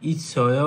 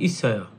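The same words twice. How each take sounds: First: The word is drawn out with a questioning tune. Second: The word is said plainly as a statement. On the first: It asks whether something is there. "এটা একটু টেনে বলে" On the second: It states that something is there. "যদি প্রশ্ন না করে তখন বলবে"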